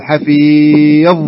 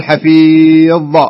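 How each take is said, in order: First: حفيظ ending with the ظ held and a short pause, no bounce; right take: stop on حفيظ calmly; without qalqala. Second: حفيظ with a bounced release on the final ظ; wrong take: حفيظ with qalqala echo. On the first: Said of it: "لا، تقول حفيظ وتوقف شوي". (حفيظ بلا قلقلة مع وقفة قصيرة) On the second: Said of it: "ما تقول حفيظ". (حفيظ بقلقلة) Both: Shown as a demonstration.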